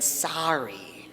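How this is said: It is said with an American accent.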